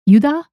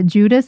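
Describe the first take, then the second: First: It starts with Y and has no final S. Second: It starts with J and ends with S.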